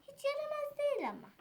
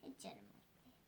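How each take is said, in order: First: Said in the usual way. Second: Whispered "Hiç yaramaz değil", no voice. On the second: Shown as a demonstration. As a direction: breathe "değil" softly.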